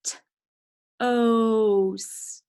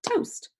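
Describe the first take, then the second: First: "T", pause, then long drawn-out "oast"; sounding out. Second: "Toast" said whole in one quick, high syllable; blended word. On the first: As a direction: break "toast" after the T and stretch the vowel. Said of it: "Let's check it". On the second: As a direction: snap "Toast" together, pitched up. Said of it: "It's one syllable". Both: Shown as a demonstration.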